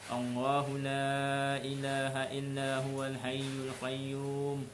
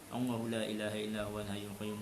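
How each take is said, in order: First: It is recited slowly and calmly. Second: It is recited quickly and hurriedly. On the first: Each word is pronounced clearly one by one. The speaker calls it right. "bacalah dengan tenang" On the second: The reciter wants to finish quickly. The speaker calls it wrong. "dia membaca dengan laju lah"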